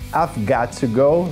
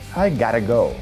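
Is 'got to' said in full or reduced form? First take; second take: full; reduced. First: 'Got to' is said as two full words. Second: 'Got to' is reduced to 'gotta'. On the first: "você pode falar"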